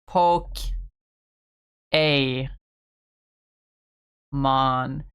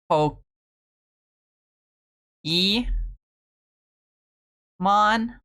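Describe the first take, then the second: First: The middle syllable has an 'ay' vowel. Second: The middle syllable has an 'ee' vowel. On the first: This is the intended pronunciation. "the way you're supposed to pronounce it is like" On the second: This is the speaker's habitual pronunciation. "usually I default to"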